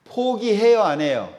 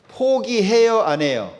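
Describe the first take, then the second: No difference in how they are said.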